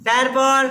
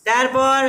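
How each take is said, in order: No difference in how they are said.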